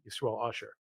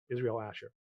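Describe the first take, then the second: First: The names are said as Yisrael Usher. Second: The names are said as Israel Asher. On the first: This is how the family actually says the name. "he goes by Usher" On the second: This is the official written form of the name. "I was giving you the birth certificate versions of everyone's names"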